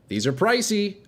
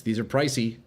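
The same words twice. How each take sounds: First: "pricey" pitched way up in mock shock; mock high pricey. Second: Said in the usual way. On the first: Streamer to chat, mock shocked high "pricey". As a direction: squeak out "pricey" in fake alarm.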